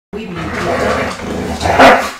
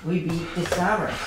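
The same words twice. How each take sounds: First: Louder, slow, drawn-out victory cry; triumphant yell. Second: Said in the usual way. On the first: Real, not acted. Streamer celebrating beating the Summers, slow victory roar. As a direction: roar it out like a champion.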